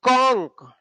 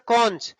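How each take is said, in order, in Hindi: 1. इस शब्द का अंत 'k' की आवाज़ से होता है। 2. इस शब्द का अंत 'ch' की आवाज़ से होता है। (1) "इसको कह देंगे कॉन्क" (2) "कॉन्च कहते हैं तो गलत"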